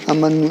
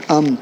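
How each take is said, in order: First: امن as two syllables "a-man"; wrong pronunciation. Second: امن as one syllable "amn"; correct pronunciation. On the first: Teacher rejecting the common reading, امن as "a-man". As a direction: say امن with a vowel between m and n, "aman". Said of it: "امن غلط ہوتا ہے". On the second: Teacher giving the proper reading, امن as "amn". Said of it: "یہ لفظ ہے امن". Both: Shown as a demonstration.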